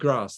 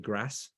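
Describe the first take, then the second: First: It is said in a posh BBC-style accent. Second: It is said in a Leicester accent.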